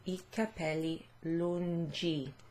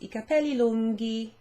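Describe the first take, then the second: First: The g in lunghi sounds unlike in lungo. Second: The g in lunghi sounds like in lungo. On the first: The speaker calls it wrong. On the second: The speaker calls it right.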